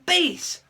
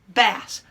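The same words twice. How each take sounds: First: The vowel is long, as in face. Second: The vowel is short, as in cat. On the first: It names the lowest male singing voice. "long A" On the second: It names a freshwater fish. "Short A sound"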